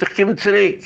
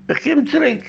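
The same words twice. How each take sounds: First: Said in the usual way. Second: "Ich komm zurück" said much higher, emphatic; emphatic high echo of "komm zurück"; much higher repeat. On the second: Retold or imitated. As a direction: repeat it with a big high lift.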